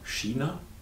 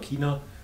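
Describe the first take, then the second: First: The word is said with a non-Bavarian pronunciation. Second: The word is said with a Bavarian pronunciation. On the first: "woanders sagt man China" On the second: "In Bayern sagt man China"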